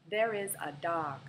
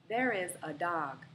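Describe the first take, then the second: Both takes have the same delivery.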